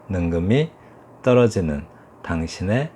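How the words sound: Each word is cut off short and separate. "톡톡 끊어서 읽는 것이 이제 스타카토식"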